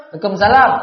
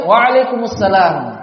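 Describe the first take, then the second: First: "Waalaikumsalam" cepat dan ditelan jadi "lekomsala"; jawaban terburu-buru. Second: "Waalaikumsalam" pelan dan lengkap tiap suku kata; tidak terburu-buru. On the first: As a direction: jawab salam asal cepat. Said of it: "Jangan jawabnya". (jawaban salam yang disingkat keliru) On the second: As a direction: jawab salam dengan tenang dan jelas. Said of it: "Jangan terburu-buru". (jawaban salam yang pelan dan utuh) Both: Shown as a demonstration.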